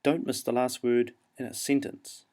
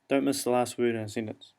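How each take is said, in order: First: "sentence" set apart and said clearly to the end; stress on last word. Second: "sentence" left to drop away unstressed; falling away at end. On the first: Teacher giving an example of aiming for the last word, emphasizing "sentence". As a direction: aim for "sentence", landing it firmly. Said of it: "You'll see how I emphasize the last word there". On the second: Teacher showing how New Zealanders lose last words, falling away at the end. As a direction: let "in a sentence" fade off, Kiwi style. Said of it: "We fall away quite easily". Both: Shown as a demonstration.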